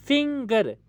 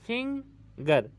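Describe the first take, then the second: First: Said in the usual way. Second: finger slowly split as Phing, pause, गर; syllable break. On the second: Shown as a demonstration. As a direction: leave a gap before गर in finger. (Finger को धीरे, तोड़कर फिंग... गर) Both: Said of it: "तो हमारी आवाज़ टूटी".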